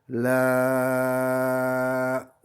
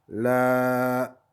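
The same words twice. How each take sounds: First: The vowel is held for six counts. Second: The vowel is held for two counts. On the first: "ça fait une durée six" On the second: "donc c'est une durée double"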